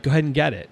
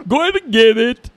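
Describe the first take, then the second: First: Said in the usual way. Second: High, loud Eddie Murphy style voice; loud hammed-up Eddie Murphy take on the line; Eddie Murphy impression. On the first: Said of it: "So she was like". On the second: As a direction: ham it up like Eddie Murphy doing an African accent. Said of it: "Like Eddie Murphy".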